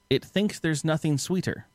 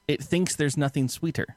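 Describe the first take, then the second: No difference in how they are said.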